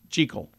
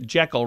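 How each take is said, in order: First: The first syllable rhymes with 'tree'. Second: The first syllable rhymes with 'heck'. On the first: The speaker calls it right. "It's supposed to be Jekyll. Rhymes with treacle" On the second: The speaker calls it wrong. "we say it Jekyll, rhyming with uh, heckle"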